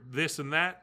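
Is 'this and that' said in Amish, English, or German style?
English. It is said with a plain English TH sound. "for this and that"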